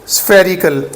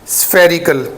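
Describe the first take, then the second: No difference in how they are said.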